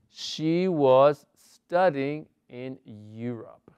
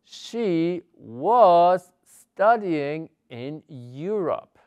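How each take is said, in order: First: Slow, even English example; slow model reading. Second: Was drawn out and lifted, the rest slow; slow model reading with stress on was. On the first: Teacher repeating the past continuous example slowly. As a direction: read it again slowly and clearly. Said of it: "teacher repeats model". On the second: Teacher modelling the past continuous slowly for students. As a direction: stretch the words for learners. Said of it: "teacher models past continuous". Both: Shown as a demonstration.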